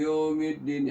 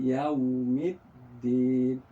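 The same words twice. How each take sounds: First: The first syllable is flattened into yo. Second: The first syllable is a clear gliding yau. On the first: The speaker calls it wrong. "Kalau tidak cepat dia menjadi ... ya yo jadinya" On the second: The speaker calls it right. "kemudian dia balik lagi"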